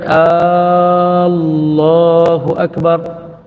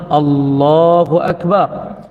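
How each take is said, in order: First: The hamzah vowel is drawn out long. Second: The hamzah vowel is kept short. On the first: The speaker calls it wrong. "bukan Allahu Akbar" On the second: The speaker calls it right. "sepatutnya Allahu Akbar"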